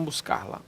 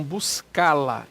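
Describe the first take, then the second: First: "buscar-la" with the R sounded before "la"; wrong form with R. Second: "buscá-la" with stressed open A and no R; correct form without R. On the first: Teacher showing what to avoid, "buscar-la" with R kept. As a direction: say "buscar-la" keeping the incorrect R. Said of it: "e não buscar-la". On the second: Teacher giving the corrected form, "buscá-la" with R dropped. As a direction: stretch the stressed A in "buscá-la", straight into "la". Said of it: "Acento agudo no A e retiro o R". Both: Shown as a demonstration.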